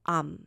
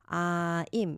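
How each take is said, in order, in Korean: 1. 짧은 'ahm' 소리로 줄어들어요. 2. 'eye' 모음 소리가 완전하게 나요. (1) "실제 원어민들은 이거를 am 이렇게 발음해요" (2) "우리는 I'm 요렇게 발음하는데 익숙한다고"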